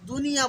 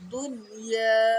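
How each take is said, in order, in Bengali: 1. দুটি শব্দাংশ একসাথে উচ্চারিত হয়। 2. দুটি শব্দাংশ আলাদা করে উচ্চারিত হয়। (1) "দুনিয়া বলে অনেকে" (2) "দুনিয়া আলাদা আলাদা"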